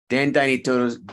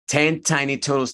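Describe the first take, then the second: First: The T sounds are unaspirated, close to D. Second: The T sounds have a strong puff of air. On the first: The speaker calls it wrong. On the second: The speaker calls it right.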